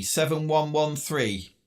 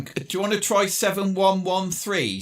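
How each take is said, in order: First: "Seven one one three" read slowly, each number apart; slow, spelled-out numbers. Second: Said in the usual way. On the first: Real, not acted. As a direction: dictate the numbers slowly over the radio.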